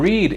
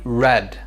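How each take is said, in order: First: It does not sound like the word 'red'. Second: It sounds exactly like the word 'red'. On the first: It is the present tense. "O read, ele é presente" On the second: It is the past tense. "A pronúncia muda"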